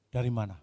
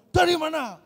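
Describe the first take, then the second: First: The question is asked in a normal, softer voice. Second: The question is asked longer and much louder.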